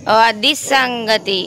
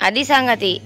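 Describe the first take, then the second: First: Very slow, dragged out and lower; a slow knowing అది సంగతి; slow drawn-out realisation. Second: Said in the usual way. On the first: Shown as a demonstration. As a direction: stretch అది సంగతి out in dawning understanding.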